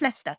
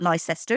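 First: The name is not pronounced the way it is spelled. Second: The name is pronounced the way it is spelled. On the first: The speaker calls it right. "it's Leicester" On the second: The speaker calls it wrong. "because it looks like Leicester, but it's not Leicester"

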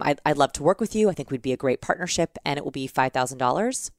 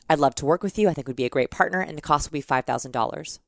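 First: The voice rises at the end like a question. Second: The voice falls at the end with finality.

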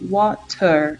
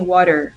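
First: The middle consonant is a clear T sound. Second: The middle consonant sounds like a quick R.

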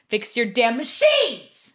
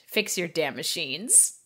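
First: It is said loudly, as if shouting. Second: It is said in a plain, calm voice.

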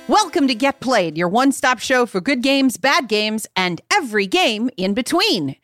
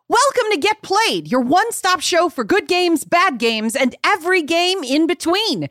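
First: It is said with little enthusiasm. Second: It is said with more enthusiasm.

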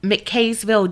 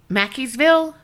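First: The second syllable sounds like 'kay'. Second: The second syllable sounds like 'key'. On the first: The speaker calls it wrong. "I probably fucked up the pronunciation" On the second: The speaker calls it right. "they pronounce it Mackey"

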